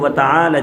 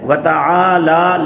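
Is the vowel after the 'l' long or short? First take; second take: short; long. First: The vowel after the l is said short. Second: The vowel after the l is held long. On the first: The speaker calls it wrong. "लेकिन हम इसको व तआला जद्दु का कहते हैं, इस पर ज़बर लगा देते हैं।" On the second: The speaker calls it right. "लाम के ऊपर खड़ी ज़बर है, एक अलिफ के बराबर, इसको लंबा करना है।"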